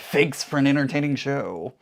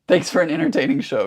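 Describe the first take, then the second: First: It is said in a mocking, sarcastic tone. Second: It is said in a plain, sincere tone.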